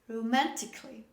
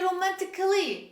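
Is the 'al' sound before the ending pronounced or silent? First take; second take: silent; pronounced. First: The 'al' is silent before 'ly'. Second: An extra 'al' syllable is pronounced before 'ly'. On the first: The speaker calls it right. "this is romantically" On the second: The speaker calls it wrong. "Don't say romantically"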